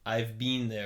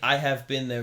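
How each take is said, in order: First: 'Been' is said with a long vowel, like 'bean'. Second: 'Been' is said with a short vowel, like 'bin'. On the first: This is how people in other countries might say it. "it sounds like something the Brits might say" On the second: This is how the speaker's own region says it. "that's how we would say it"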